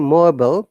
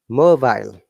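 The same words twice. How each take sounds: First: It is said with an American pronunciation. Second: It is said with a British pronunciation. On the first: "American I P A mobile" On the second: "but in British I P A"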